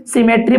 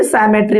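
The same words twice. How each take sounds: First: सिमेट्री said "si-me-tri", first syllable as "si"; short first vowel. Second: सिमेट्री said "sai-me-tri", first vowel like "eye"; long "sai" opening. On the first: Teacher offers students two options, सिमेट्री said as "si-metri". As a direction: pronounce सिमेट्री with "si" at the start. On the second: Teacher offers students the other option, सिमेट्री said as "sai-metri". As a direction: pronounce सिमेट्री with "sai" at the start. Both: Shown as a demonstration. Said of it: "सिमेट्री बोले या फिर सिमेट्री बोले".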